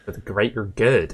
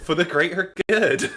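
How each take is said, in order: First: Mock West Country village chant; solemn mock West Country accent; Hot Fuzz villager. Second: Higher mock West Country village chant; hammed-up West Country chant, high-pitched; Hot Fuzz villager. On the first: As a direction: intone it in a West Country burr. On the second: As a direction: echo it in a raised West Country burr. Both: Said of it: "Hot Fuzz".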